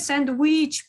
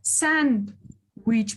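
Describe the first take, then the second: First: The stress is on the second syllable. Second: The stress is on the first syllable. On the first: The speaker calls it wrong. "экинчиге" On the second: The speaker calls it right. "Биринчиге"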